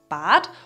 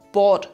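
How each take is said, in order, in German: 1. Der Vokal klingt wie ein a. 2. Der Vokal klingt wie ein o. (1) "statt Bad" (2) "dass wir statt a ein o sagen"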